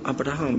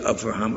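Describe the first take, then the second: First: The second consonant is a b sound. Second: The second consonant is a v sound. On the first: The speaker calls it right. "It's really B" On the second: The speaker calls it wrong. "We don't say Avraham"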